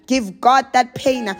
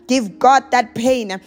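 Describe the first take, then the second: No difference in how they are said.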